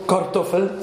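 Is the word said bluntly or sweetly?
bluntly. It is said in a plain, blunt tone. The speaker calls it wrong. "nicht so Kartoffel"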